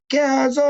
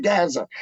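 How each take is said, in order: First: GAZA held long and high; drawn-out name call. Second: Said in the usual way. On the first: Shown as a demonstration. Showing how he says Gaza's name, drawn-out high call. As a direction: stretch the end of Gaza out on one high note. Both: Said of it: "Same with Gaza".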